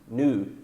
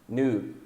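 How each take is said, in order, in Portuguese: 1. É falado com pronúncia americana. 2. É falado com pronúncia americana.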